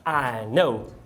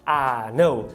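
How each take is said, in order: The two takes are said the same way.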